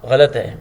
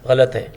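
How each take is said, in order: Both takes have the same delivery.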